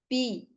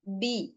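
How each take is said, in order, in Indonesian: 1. Konsonannya terdengar agak seperti bunyi p. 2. Konsonannya bunyi b yang jelas dan bersuara. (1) "dia mengucapkan huruf B menyerupai P. B jadi pi"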